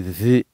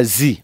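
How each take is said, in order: First: "zi" said as Arabic dhal, tongue tip between teeth; the right way, "zi" with a soft th. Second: "zi" said with a plain English z sound; the wrong way, "zi" as z. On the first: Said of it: "on dit zi". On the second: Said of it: "on dit pas zi". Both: Shown as a demonstration.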